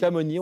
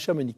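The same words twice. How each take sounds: First: The final x is silent. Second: The final x is pronounced. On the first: The speaker calls it right. "On dit Chamonix" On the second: The speaker calls it wrong. "on ne dit pas Chamonix"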